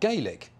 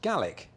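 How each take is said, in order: First: The first syllable sounds like 'gay'. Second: The first syllable sounds like 'gal'. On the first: This is the Irish pronunciation. The speaker calls it wrong. "not Gaelic, which is Irish" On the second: This is the Scottish pronunciation. The speaker calls it right. "Gaelic is pronounced Gaelic in Scotland"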